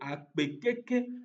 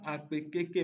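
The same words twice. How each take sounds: First: Keke has the tone of the word for much. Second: Keke has the tone of the word for bicycle. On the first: Thank you very much. The speaker calls it right. "mais plutôt akpe, keke" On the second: Thank you, bicycle. The speaker calls it wrong. "on ne dit pas akpe, keke"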